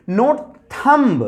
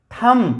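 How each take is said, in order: First: Thumb said with a b sound at the end; thumb with the b pronounced, the wrong way; wrong pronunciation. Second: Thumb said as "tham", no b at the end; thumb ending on m only; silent b. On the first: (thumb में बी बोलकर, गलत तरीका) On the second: (बी के बिना thumb बोलें) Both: Shown as a demonstration.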